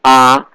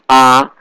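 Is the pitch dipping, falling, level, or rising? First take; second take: level; level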